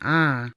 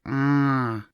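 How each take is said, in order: First: The vowel is plain, not nasal. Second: The vowel is strongly nasal. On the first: "Rather than just saying ah" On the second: "strongly nasal"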